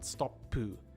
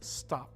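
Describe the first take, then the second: First: An extra vowel is added after the final consonant. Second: The word ends cleanly on the final consonant. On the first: The speaker calls it wrong. "not stoppu" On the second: The speaker calls it right. "It's stop"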